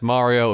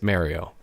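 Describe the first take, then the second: First: It is said in a Mario impression voice. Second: It is said in the speaker's natural voice.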